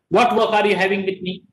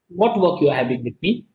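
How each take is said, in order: First: It is said loudly in an angry tone. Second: It is said softly in a friendly tone. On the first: "Here I am having an angry emotion" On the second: "In the first, I was soft"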